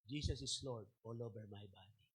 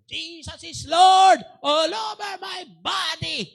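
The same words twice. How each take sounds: First: It is said quietly and haltingly. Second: It is shouted in a big, loud voice. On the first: The person can barely get the words out. "paunting-unting sinasabi ni Brian" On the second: The person finally declares it with full force. "Gumanon siya. Malaki boses niya"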